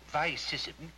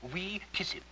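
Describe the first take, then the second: First: It uses the traditional English-style Latin pronunciation. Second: It uses the new style of Latin pronunciation. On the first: The speaker calls it right. "Instead of vi sissim" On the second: The speaker calls it wrong. "you'd make them say we kiss him"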